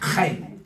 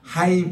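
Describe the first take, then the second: First: It starts with a rasping sound from the throat. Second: It starts with a soft, breathy h sound. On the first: The speaker calls it right. "키역 발음을 약간 섞이면 이게 정확한 발음이에요 ... 목젖에다가 나오는 소리입니다" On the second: The speaker calls it wrong. "그냥 하임 이러면 별로예요"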